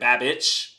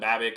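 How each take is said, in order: First: The name ends with an 'itch' sound. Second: The name ends with an 'ick' sound. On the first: "Is it itch" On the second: "instead of ick"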